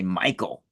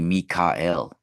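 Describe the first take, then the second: First: The name is said with two syllables. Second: The name is said with three syllables. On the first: The speaker calls it wrong. "We say Michael" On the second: The speaker calls it right. "It's actually Mikael"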